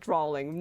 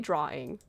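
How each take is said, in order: First: The word has an added L sound, like drawling. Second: The word has no L sound, plain drawing. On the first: Someone else believes it is said this way. The speaker calls it wrong. "Scott thinks I say it like drawing" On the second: This is how it is really said. The speaker calls it right. "No, I say drawing"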